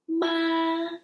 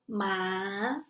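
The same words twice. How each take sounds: First: The pitch stays high and level. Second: The pitch rises from low to high.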